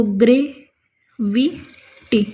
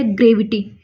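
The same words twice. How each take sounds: First: Drawn-out dictation. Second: Said in the usual way. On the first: Shown as a demonstration. Teacher writing shorthand on the board, very slow. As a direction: stretch the word very slowly while writing. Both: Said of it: "जैसे हमने लिख दिया gravity".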